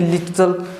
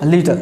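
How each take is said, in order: First: The middle t is said as two sounds. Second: The middle t is said as one sound. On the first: The speaker calls it wrong. "न कि" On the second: The speaker calls it right. "उसका उच्चारण एक ही माना जाता है"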